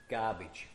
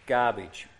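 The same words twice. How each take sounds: First: Low, soft, scornful Garbage; quiet dismissal. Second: Firm dismissal. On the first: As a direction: mutter Garbage under the breath. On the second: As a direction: slam down Garbage. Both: Shown as a demonstration. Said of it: "dismissing a view".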